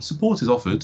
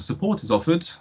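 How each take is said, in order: First: It is said in a normal voice. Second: It is said in a posh put-on voice.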